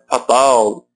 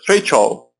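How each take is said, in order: First: It is said with Portuguese vowels and sounds. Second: It is said with English vowels and sounds. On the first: The speaker calls it wrong. "cuidado para não falar" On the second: The speaker calls it right. "E fatal seria feichol. Olha como é diferente"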